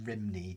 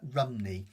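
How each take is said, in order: First: The first syllable has an 'ih' vowel, like 'rim'. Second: The first syllable has an 'uh' vowel, like 'rum'. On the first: This is not the Welsh way to say the name. The speaker calls it wrong. "rather than Rimney" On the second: This is the Welsh way to say the name. The speaker calls it right. "if you say it in Welsh, it's like um, Rumney"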